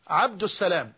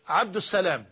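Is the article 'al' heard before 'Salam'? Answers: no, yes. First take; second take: yes; yes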